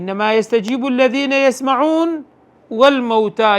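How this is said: There is a pause after the fourth word. Only the listeners respond; the dead are raised later. The speaker calls it right. "دبيت قارئ لسر يستمعون راب وسيسن"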